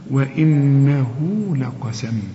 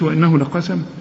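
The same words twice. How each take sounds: First: The vowel after the ha is lengthened. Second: The vowel after the ha is kept short. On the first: The speaker calls it right. "مد طبيعي" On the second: The speaker calls it wrong. "ما تقولش"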